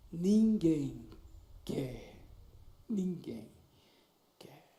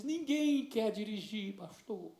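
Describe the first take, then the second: First: Lower, broken, trailing off word by word; mild imitation of a girl crying, lower and halting. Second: Slow, soft, close to tears; mild imitation of a crying teenager; tearful girl. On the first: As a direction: let each word break and fade like sobbing. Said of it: "E ela começou a chorar". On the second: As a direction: plead it slowly, holding back tears. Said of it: "E começou a chorar".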